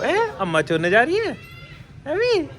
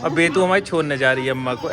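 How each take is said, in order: First: High, rising teasing question. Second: Said in the usual way. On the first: Real, not acted. बच्ची से लाड़ में सवाल. (बच्ची से लाड़ भरा ऊँचा सवाल)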